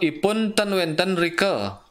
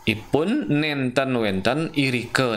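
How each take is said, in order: First: The words are clipped to shortened forms. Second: The words are said in their full forms. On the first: It is the middle-polite register. The speaker calls it wrong. "Karena dipotong atau tidak lengkap, ten menja- atau nenten menjadi ten, irike menjadi drike" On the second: It is the fully polite register. The speaker calls it right. "Patut nih"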